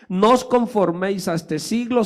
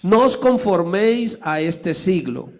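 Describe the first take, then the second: First: It is read fast, running straight on. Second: It is read slowly, with a pause after it.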